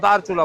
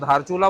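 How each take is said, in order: First: The name begins with a plain d sound. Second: The name begins with an aspirated dh sound. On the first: This is the name used on the Nepali side. "Nepal की तरफ के हिस्से को दारचूला बोला जाता है" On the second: This is the name used on the Indian side. "India की तरफ का हिस्सा है उसको धारचूला बोला जाता है"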